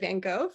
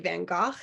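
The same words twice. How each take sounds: First: The name is said in a plain everyday way. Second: The name is said in a pretentious-sounding way. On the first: This is the common but incorrect way. The speaker calls it wrong. "instead of" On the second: This is the correct way for the painter. The speaker calls it right. "you're supposed to say"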